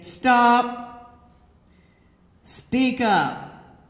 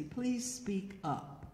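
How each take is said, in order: First: Loud, abrupt order; shouted command. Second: Soft, slow, polite request; very nicely. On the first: Man ordering her to speak up, in a loud command. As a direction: call it out forcefully, each word on its own. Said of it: "Do not shout". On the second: Man nicely asking her to speak up, soft and slow. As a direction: ask gently, taking your time. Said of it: "Just very nicely". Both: Shown as a demonstration.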